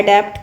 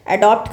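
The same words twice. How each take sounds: First: अडेप्ट with "e" in the second syllable; the "e" word. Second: अडॉप्ट with an open back vowel; the "o" word. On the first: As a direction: say अडेप्ट as "a-DEPT". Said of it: "बस ई वाला याद रखना". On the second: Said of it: "अडॉप्ट का मतलब गोद लेना". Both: Shown as a demonstration.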